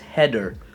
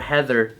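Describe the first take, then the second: First: The name is said with a Filipino-accented pronunciation. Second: The name is said with a standard pronunciation. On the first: This is how the name was mistakenly written. The speaker calls it wrong. "they accidentally wrote it as Heather, because that's how Filipinos sound" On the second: This is the name the parents intended. The speaker calls it right. "when they wanted to name her Heather"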